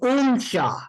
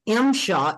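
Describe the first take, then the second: First: The name begins with a 'u' vowel sound. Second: The name begins with an 'i' vowel sound. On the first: "or like the Habu, he calls me Umshaw, U M C H A A" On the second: "there's different enunciations"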